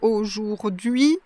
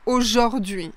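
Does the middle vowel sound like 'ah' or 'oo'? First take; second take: oo; ah. First: The middle vowel is a clear 'oo' sound. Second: The middle vowel is an 'ah' sound. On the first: This is the careful standard pronunciation. "la prononciation classique, c'est aujourd'hui, donc c'est vraiment la prononciation qui correspond à l'écriture" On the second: This is how people say it in fast speech. "quand les personnes parlent rapidement, heu, on entend souvent aujourd'hui, aujourd'hui, ah au lieu de ou"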